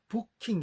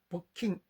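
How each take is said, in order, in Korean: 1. 첫 모음은 긴장된 한국어 우예요. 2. 첫 모음은 이완된, 더 낮은 우예요. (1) "같은 소리로 어떤 영어 단어를 발음하냐면요. 부킹 이렇게 한다고요" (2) "사실은 부킹 이렇게 해야 맞다고요"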